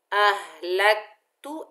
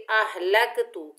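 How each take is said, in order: First: अह लक तू with the क held firmly, no bounce; correct, no echo. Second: अहलक्तु with a loud bouncing echo on the क्; louder अहलक्तु, the क् rebounding; wrong qalqala. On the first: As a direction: stick the tongue on क in अह लक तू. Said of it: "ऐसे करके पढ़ना है". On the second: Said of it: "अहलक्तु नहीं करना है". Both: Shown as a demonstration.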